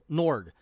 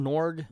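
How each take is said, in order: First: Norg said firmly with a falling tune; settled answer. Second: Norg asked with an unsure rising tune; unsure guess. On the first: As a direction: land the name Norg with certainty. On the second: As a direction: try the name Norg like a question. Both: Real, not acted.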